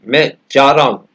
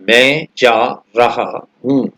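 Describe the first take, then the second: First: The last words shrink to a quick 'ra oo'. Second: Every word is pronounced fully and carefully. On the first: The speaker calls it right. "रहा की जगह केवल बोला रा और हूं की जगह केवल ऊ" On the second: The speaker calls it wrong. "ऐसे पूरे पूरे सही सही शब्दों का उच्चारण"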